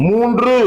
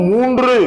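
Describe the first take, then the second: The two takes are said the same way.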